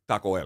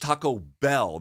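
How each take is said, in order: First: The B in Bell is very soft, almost silent. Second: The B in Bell is clearly pronounced. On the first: The speaker calls it wrong. "she'll say it borrowing from the way in which they say the letter B" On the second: The speaker calls it right. "no, no, no, it's Taco Bell"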